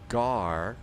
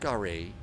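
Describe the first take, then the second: First: The word rhymes with 'car'. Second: The word does not rhyme with 'car'. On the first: The speaker calls it right. "It's Gar, like Terry Gar, the actor" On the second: The speaker calls it wrong. "it's not Gare"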